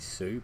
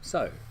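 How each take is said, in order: First: The word ends with an 'oo' vowel sound. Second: The word ends with an 'oh' vowel sound. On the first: This is how the spelling suggests it should sound. The speaker calls it wrong. "S E W should be Sue, but it's not" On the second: This is how the word is actually said. The speaker calls it right. "It's so"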